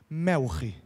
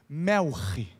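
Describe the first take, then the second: The two takes are said the same way.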